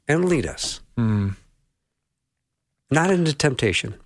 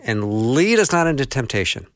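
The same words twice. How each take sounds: First: There is a short pause after 'us'. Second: The phrase runs on without a pause after 'us'. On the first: "I always take a little pause after" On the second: "I've always grown up saying"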